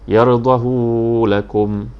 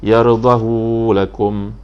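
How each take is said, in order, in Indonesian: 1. Vokal setelah h itu panjang. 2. Vokal setelah h itu panjang.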